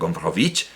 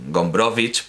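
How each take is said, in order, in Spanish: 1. El nombre se dice a la manera francesa. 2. El nombre se dice a la manera polaca.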